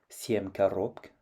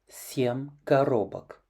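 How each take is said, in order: First: The word ends in a consonant cluster, no vowel. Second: An o vowel splits the final consonants. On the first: The speaker calls it wrong. "ne fera pas son génitif pluriel en коробк" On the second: The speaker calls it right. "mais bien en семь коробок"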